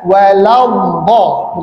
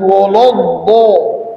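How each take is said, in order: First: The opening syllables sound light, like wa-la. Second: The opening syllables sound darkened, like wo-lo. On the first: The speaker calls it right. "harusnya wala, walambo" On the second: The speaker calls it wrong. "bukan wolodbo"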